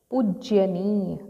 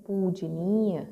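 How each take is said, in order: First: पूज्यनीय with an extra य after ज; wrong form. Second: पूजनीय without the य, ज then न; correct form. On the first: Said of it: "पूज्यनीय तो नहीं बोलते". (पूज्यनीय में अतिरिक्त य, गलत) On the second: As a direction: say पूजनीय cleanly, ज straight into न. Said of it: "पूजनीय बोलते हैं". (पूजनीय बिना य के, शुद्ध) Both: Shown as a demonstration.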